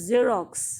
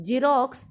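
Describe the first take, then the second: First: Xerox with a clear buzzing z, drawn out slowly; correct pronunciation. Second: Xerox said with a hard j sound, like jerox; wrong pronunciation. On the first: Teacher showing students the right way, Xerox with z. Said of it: "it is not Xerox". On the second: Teacher showing students the wrong way, Xerox as jerox. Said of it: "आप इसको जेरोक्स नहीं बोलेंगे". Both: Shown as a demonstration.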